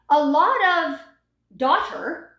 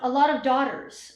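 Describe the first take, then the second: First: The final S sound is left off. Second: The final S sound is clearly pronounced. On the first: The speaker calls it wrong. "and I don't hear the S" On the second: The speaker calls it right. "make sure if it's a plural noun, you are pronouncing the S"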